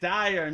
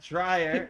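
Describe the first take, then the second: First: There is no r sound after the d. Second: There is an r sound after the d. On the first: The speaker calls it right. "it's it's Dyer" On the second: The speaker calls it wrong. "not dryer. You know, it's not like a dryer in your house"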